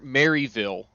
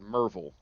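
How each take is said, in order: First: The name is pronounced exactly as it is spelled. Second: The name is said in a shortened local form. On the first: "to pronounce it how it reads" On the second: "around here, people either call it"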